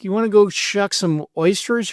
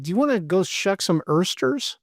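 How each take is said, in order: First: Said in the usual way. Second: OYSTERS said ERSTERS, with an er vowel. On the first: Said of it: "instead of being like". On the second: Shown as a demonstration. Asking co-host about caught slips, oysters pronounced ersters. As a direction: turn the oy of oysters into ER. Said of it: "have you ever caught yourself".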